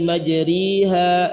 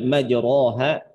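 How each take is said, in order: First: The vowel after r is a full i. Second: The vowel after r is a plain open a. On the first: "Itu karena terlalu banyak penekanannya. Jadi bukan kasroh" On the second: "Jadi bacanya bukan lagi dibaca dengan majroha"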